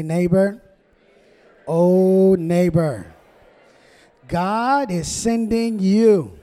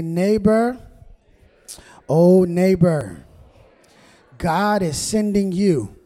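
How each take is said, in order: First: Real nice greeting. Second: Loud, stretched-out call with a smile; big-smile greeting. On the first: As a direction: stretch each phrase for the congregation to repeat. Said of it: "Just look at him real nicely". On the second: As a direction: lead the congregation in a slow, ringing call. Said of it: "with a nice big smile and say". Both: Shown as a demonstration.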